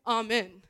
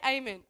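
First: "amen" opening with a broad AH; AH-men pronunciation. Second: "amen" opening with a long AY; AY-men pronunciation. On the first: Telling the kid how to end a prayer, "amen" said AH-men. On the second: Telling the kid how to end a prayer, "amen" said AY-men. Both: Retold or imitated. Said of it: "You just say amen, amen".

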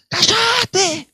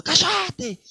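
First: High, loud yell; shouted shut up. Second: Frightened sailor shouting; shouted again. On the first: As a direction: bark it at the crying girl. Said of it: "el chabón decía". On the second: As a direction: snap it at her once more. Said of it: "para la chica que estaba llorando". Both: Retold or imitated.

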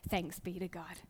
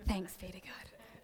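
First: Quiet congregation response. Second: Chanted, slow, soft murmured church response; chanted, drone it like a sleepy congregation. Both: Retold or imitated. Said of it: "and then people would say".

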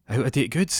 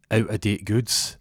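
First: "Out-of-date goods?" quicker and higher, rising at the end; questioning echo. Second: "out-of-date goods" said slowly and deliberately; measured accusation. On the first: Accused man echoes charge as question. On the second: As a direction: lay out "out-of-date goods" as a slow charge. Detective slowly lays out the charge. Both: Acted.

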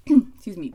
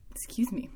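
First: Loud quick apology after throat clear. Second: Soft whispered apology. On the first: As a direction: blurt it out loudly. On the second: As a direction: whisper it under your breath. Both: Real, not acted.

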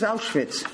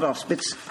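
First: Auschwitz said OWSH-vits like the Nazi camp. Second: Auschwitz said OWS-pits with a plain p; the doctor Auspitz. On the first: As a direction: say Auschwitz with a clear ch-sound, the camp's name. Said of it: "not Auschwitz". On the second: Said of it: "That was Auschwitz". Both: Retold or imitated.

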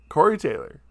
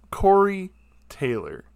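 First: Said in the usual way. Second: Emphatic name. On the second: Real, not acted.

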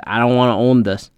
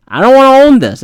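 First: Said in the usual way. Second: Higher and louder, fed up; exasperated outburst. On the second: Retold or imitated. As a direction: blurt it out in frustration. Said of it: "repeated louder".

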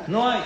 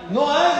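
First: Said in the usual way. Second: Loud, high-pitched incredulous repeat; indignant tsar's exclamation; outraged echo. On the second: Acted. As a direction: throw NO HAY back in acted outrage. Tsar echoes the answer in outrage.

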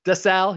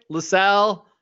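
First: "DeSalle" said with a D, deh-SAL; "DeSalle", the fixed name; corrected name. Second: "LaSalle" said with an L at the start, luh-SAL; "LaSalle", the slip before the fix; wrong name. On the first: Host corrects himself to "DeSalle" for the ensign. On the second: Host names the ensign wrongly as "LaSalle" before correcting. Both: Shown as a demonstration. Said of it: "he's not LaSalle".

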